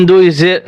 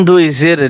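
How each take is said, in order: No difference in how they are said.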